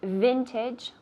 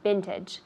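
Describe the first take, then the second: First: The word begins with a clear V sound. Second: The word begins with a B-like sound. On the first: The speaker calls it right. "with the V" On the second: The speaker calls it wrong. "not vintage"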